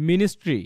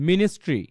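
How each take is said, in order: Both takes have the same delivery.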